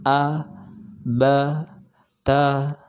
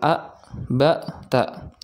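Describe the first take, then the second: First: Each syllable stays open and fades out gently. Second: Each syllable ends with a sharp glottal cut. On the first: The speaker calls it right. "Jadi suara kita itu menghilang di udara" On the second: The speaker calls it wrong. "tidak boleh menekan suara di akhir"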